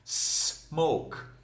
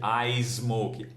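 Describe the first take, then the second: First: The word starts directly with the s sound. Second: An extra vowel sound comes before the s. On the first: The speaker calls it right. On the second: The speaker calls it wrong.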